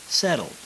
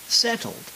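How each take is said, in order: First: The word is softer with a lighter middle T. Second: Every sound is pronounced strongly and harshly. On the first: "as they are pronounced when speaking American English" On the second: "as you might learn it in vocabulary practice"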